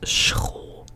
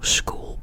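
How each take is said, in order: First: The s is followed by a guttural throaty sound. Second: The s is followed by a hard k sound. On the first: The speaker calls it right. "it's school. So it is an S plus like a guttural G sound" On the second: The speaker calls it wrong. "This in Dutch is not, you know, school"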